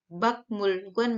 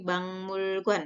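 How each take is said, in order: First: Said in the usual way. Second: "bangmulguan" with the k turned into ng; nasal assimilation, "bangmulguan" for bakmulguan; nasalised pronunciation. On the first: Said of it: "menjadi bangmulguan". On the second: Shown as a demonstration. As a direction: say "bangmulguan" slowly, ng before m.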